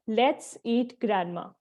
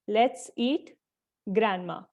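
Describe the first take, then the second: First: It is said without a pause after eat. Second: It is said with a short pause after eat. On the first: The grandmother is the one to be eaten. "यहाँ पे कोई punctuation तो use कर ही नहीं गई" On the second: The grandmother is being invited to eat. "हम थोड़ा pause करके बोलते हैं"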